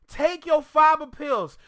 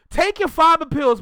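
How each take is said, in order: First: "fiber" stressed, each word spaced out slowly; slow deliberate repeat. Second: "fiber" punched loud and high, quick; loud command. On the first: Repeating advice to Rory, slow and deliberate. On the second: Talking to Rory, a loud blunt order. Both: Real, not acted.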